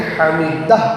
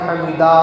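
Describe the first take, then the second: First: The d is short, ending on h. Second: The d is drawn out with a long vowel. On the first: The speaker calls it right. "बल्कि हमीदह कहना है" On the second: The speaker calls it wrong. "दाल को भी खींचना नहीं है, यानी समी अल्लाहु लिमन हमीदा ऐसा नहीं कहना है"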